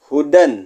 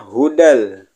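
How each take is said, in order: First: The word ends with a clear n sound. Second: The final n merges into an l sound. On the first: The word is read on its own. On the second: The word is joined to the following doubled lam.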